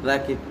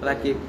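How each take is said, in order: Both takes have the same delivery.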